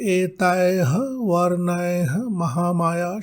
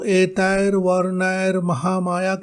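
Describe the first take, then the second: First: The first two words end with a breathy h. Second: The first two words end with an r sound. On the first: "शब्द भी बोल सकते हैं" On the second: "के स्थान पर"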